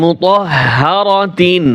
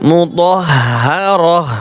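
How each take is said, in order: First: মুতাহহারাতিন slowly with full "tin" ending; unstopped reading. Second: মুতাহহারাহ slowly, ending on "rah" with audible h; waqf stop. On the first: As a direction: recite মুতাহহারাতিন through to "-tin". (শেষে "তিন" সহ মুতাহহারাতিন) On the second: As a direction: drop "tin", close মুতাহহারাহ on breathed h. (ধীরে, শেষে "রহ" দিয়ে মুতাহহারাহ) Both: Shown as a demonstration. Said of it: "ওয়াকফ করার সময়".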